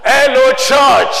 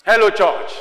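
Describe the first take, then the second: First: Very loud, drawn-out shout; high, booming call, stretched slowly. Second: Said in the usual way. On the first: Real, not acted. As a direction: rouse the whole congregation with it. Final, loudest call to congregation.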